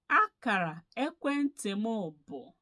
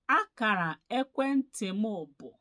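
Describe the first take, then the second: No difference in how they are said.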